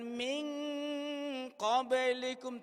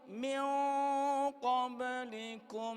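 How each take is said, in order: First: The nasal before q sounds like a clear ng. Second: The nasal before q is softened and hidden. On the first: The speaker calls it wrong. "Bukan ming qablikum, tidak" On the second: The speaker calls it right. "karena dia qaf berarti harus bunyinya"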